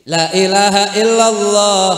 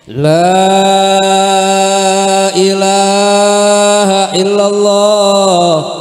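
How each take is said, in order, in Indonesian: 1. Vokal pada 'la' dibaca pendek. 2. Vokal pada 'la' dibaca panjang. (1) "Lamnya mestinya dibaca mad, tapi dibaca pendek" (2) "Kalau baca la ilaha illallah yang benar begitu tuh"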